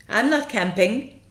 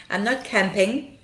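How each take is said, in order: Both takes have the same delivery.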